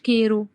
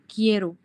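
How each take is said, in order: First: The first vowel is a plain e sound. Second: The first vowel is a gliding ie sound. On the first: The speaker calls it wrong. "إحنا لو ما حطيناش الE هتبقى كيرو" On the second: The speaker calls it right. "بيبقى نطقها كده لمّا نحط ال الI دي اللي هي الE اللي في النُص"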